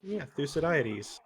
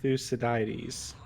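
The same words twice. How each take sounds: First: Thucydides with the weight on "di"; stress on third syllable. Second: Thucydides with the weight on "cy", said slowly; stress on second syllable. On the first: Contrasting a different stress on the name. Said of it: "emphasis on the third syllable". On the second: Teaching the name with second-syllable stress. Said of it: "Emphasis on the second syllable". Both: Shown as a demonstration.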